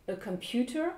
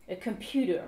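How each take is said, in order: First: 'computer' with a crisp T, rising end; British "computer", higher with clear T. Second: American 'computer' with a D, falling end. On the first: Teacher translates un ordinateur, computer with real T. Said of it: "comme un T". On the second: Teacher contrasts for learners, computer with D sound. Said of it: "comme un D". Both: Shown as a demonstration.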